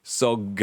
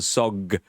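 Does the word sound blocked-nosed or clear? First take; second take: blocked-nosed; blocked-nosed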